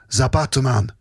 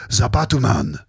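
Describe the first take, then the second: Both takes have the same delivery.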